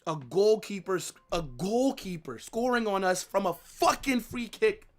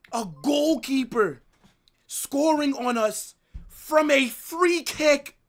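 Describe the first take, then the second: First: Said in the usual way. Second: Slow, high, loud outraged yell at the goalkeeper's goal. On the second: Real, not acted. Fan yelling at his club's defending, slow and furious. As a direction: drag out each word and shout it in disbelief.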